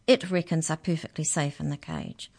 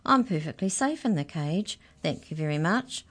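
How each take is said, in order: First: Said in the usual way. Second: Cheerful mouse. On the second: Acted. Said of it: "same infuriating, cheerful voice".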